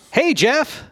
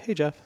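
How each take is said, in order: First: It is said in an overly excited way. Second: It is said in a plain, calm way.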